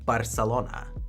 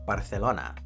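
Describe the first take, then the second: First: The c is said with an s sound. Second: The c is said with a th sound. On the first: "in Catalan, you say Barcelona" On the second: "Spanish ... you would say Barcelona"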